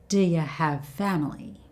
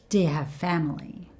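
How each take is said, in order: The two takes are said the same way.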